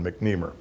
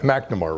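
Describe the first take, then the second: First: The name is said the American way. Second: The name is said the British way. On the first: "the American pronunciation is often McNemer" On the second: "the British or English pronunci pronunciation is McNemer, Ma McNamara rather"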